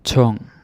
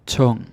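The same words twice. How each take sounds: First: Tung repeated with aspirated t, "thong"; Danish U sound, repeated. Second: Tung with a round short U, "tong"; Tung, U like "o" in tong, falling; Danish U sound. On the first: Teacher repeats Tung for learners, louder. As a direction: Tung again, breathier t, falling. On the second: Teacher shows the U in Tung, falling. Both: Shown as a demonstration. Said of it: "two ways to pronounce the U".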